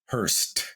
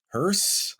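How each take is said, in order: First: The word ends with an added T sound. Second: The word ends with a plain S sound. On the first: The speaker calls it wrong. "S E does kind of like make the T sound" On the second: The speaker calls it right. "Are you saying hearse"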